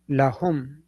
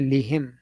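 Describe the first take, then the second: First: The first vowel is an 'a' sound. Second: The first vowel is an 'i' sound. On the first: The speaker calls it right. "So that is uh, you know lahum" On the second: The speaker calls it wrong. "We do not say lihim"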